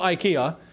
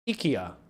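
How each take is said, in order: First: The name is said with English pronunciation. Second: The name is said with Swedish pronunciation. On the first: The speaker calls it wrong. "It's not IKEA. We've been saying it wrong for decades" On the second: The speaker calls it right. "if we're going to say it correctly, as the Swedes say"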